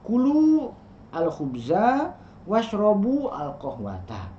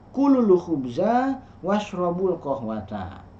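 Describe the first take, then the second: First: Each word is said separately, without linking. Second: The words are joined, linking into the article.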